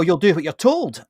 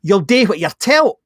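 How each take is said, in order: First: Said in the usual way. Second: Broad Glaswegian, slow and a bit louder; Glaswegian accent. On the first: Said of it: "you know". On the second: Retold or imitated. Glaswegian accent, telling a worker what to do. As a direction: say it like a blunt Glasgow boss. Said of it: "I'll speak Glaswegian for a minute".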